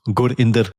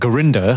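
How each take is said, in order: First: The name is pronounced with non-English sounds. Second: The name is pronounced with English sounds.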